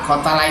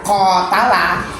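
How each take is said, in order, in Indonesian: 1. Vokal pertama pendek. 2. Vokal pertama panjang. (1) "kotala itu artinya membunuh" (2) "kalau panjang kotala itu sudah saling bunuh"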